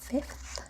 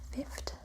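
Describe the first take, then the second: First: The word ends with two fricative sounds. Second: The final fricative is replaced by a stop. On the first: "where two fricatives are put next to each other" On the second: "might be pronounced as"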